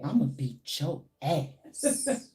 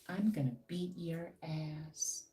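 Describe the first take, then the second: First: It is said in a forceful, threatening tone. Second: It is said in a mild, unthreatening tone.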